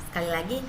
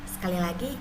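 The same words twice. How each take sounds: No difference in how they are said.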